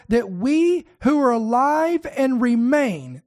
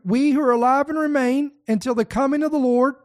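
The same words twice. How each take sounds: First: "we who are alive and remain" drawn out slowly, "we" leaned on; slow it down and point at "we"; lingering on "we" as one group; slow stress on we. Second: Said in the usual way. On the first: Shown as a demonstration. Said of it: "so this is one group". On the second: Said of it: "That's second group".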